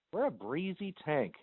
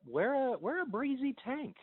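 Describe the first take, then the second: First: Said in the usual way. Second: High playful. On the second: Real, not acted. Playful advice.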